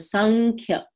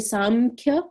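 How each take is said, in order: First: An n sound comes before the k. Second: An m sound comes before the k. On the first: The speaker calls it right. "we make it a, a N K kind of when we pronounce it" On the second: The speaker calls it wrong. "some people will say Samkhya"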